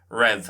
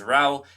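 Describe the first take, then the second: First: The word ends in a v consonant sound. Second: The word ends in an open vowel sound. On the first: "in Munster it'll normally be Rev" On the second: "I would pronounce this as Rao"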